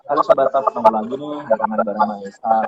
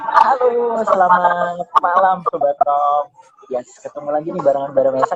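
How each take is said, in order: First: It sounds flat without any joy. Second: It sounds happy and glad to meet.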